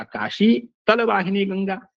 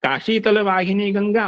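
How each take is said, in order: First: "Kashi", a short stop, then "तल वाहिनी Ganga"; pause after Kashi. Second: "Kashi तल वाहिनी Ganga" in one unbroken run; joined without pause. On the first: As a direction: break the phrase between "Kashi" and "तल". ("काशी" के बाद विराम, फिर "तल वाहिनी Ganga") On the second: ("Kashi तल" बिना रुके एक साथ बोलें) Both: Shown as a demonstration. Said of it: "यति है उससे अर्थ में भेद आता है".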